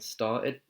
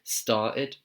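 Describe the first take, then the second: First: The middle T sound is dropped. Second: The same.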